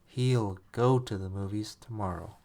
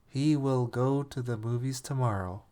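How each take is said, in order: First: He will is squeezed into one syllable. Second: He will is said as two full words.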